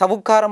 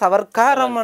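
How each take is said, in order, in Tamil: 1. இரண்டாம் அசை வெறும் 'வு' ஒலி. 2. இரண்டாம் அசை 'வர்' — r உடன். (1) "சவுக்காரம் என்று சொல்றதை விட" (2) "சவர்க்காரம் என்று"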